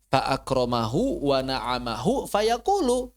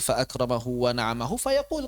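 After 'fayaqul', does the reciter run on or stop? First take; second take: run on; stop. First: The last word keeps its vowel and runs on. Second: The recitation stops cleanly after the last word. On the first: The subject of the verbs seems to be the same. The speaker calls it wrong. "Kan nyambung tuh jadinya" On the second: It is clear that the person is the one speaking. The speaker calls it right. "kalau mau berhenti"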